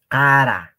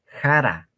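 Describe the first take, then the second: First: "Cara" con la k reventada, fuerte; k eyectiva. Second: "jara" con jota suave, sin estallido; pronunciación con jota. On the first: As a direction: golpea la k de "Cara" con un estallido seco. ("Cara" con k explosiva, no como jota) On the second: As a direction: empieza "jara" con aire, como una jota. ("jara" con inicio aspirado en vez de k reventada) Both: Shown as a demonstration. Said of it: "No estoy pronunciando jara".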